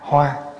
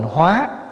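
First: The syllable is said on a level tone. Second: The syllable is said on a rising tone. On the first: It means a flower. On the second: It means to transform. "nếu bỏ dấu sắc vô là thành hóa"

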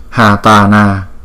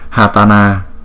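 The two takes are said the same way.

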